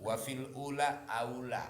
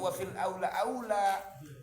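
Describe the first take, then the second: First: The last words are said as ula, then aula. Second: Both last words are said as aula. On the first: The speaker calls it right. "kasih harokat tuh" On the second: The speaker calls it wrong. "jangan salah baca loh"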